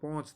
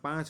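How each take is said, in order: First: The vowel is a rounded, nasal 'o' sound. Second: The vowel is an open, nasal 'aa' sound. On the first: This is how it is said in north Gujarat. "ઉત્તર ગુજરાત બાજુ જઈએ તો પોંચ થઈ જાય" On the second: This is how it is said locally. "આપણે અહીંયા પાંચ બોલીએ"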